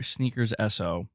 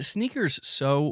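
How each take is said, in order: First: The ending is spelled out as two letters. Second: The ending is said as one word, "so". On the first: "Because I say it's Sneakers S O" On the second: "is it Sneakers So"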